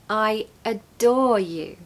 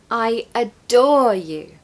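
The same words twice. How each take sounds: First: The stress falls on the word adore. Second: The same.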